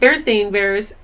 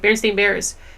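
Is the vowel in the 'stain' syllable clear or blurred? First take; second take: clear; blurred. First: The 'stain' vowel is said fully and clearly. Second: It is said fast, the 'stain' vowel blurred. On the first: "like if you really pronounce the A" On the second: "if you just kind of like say it quickly"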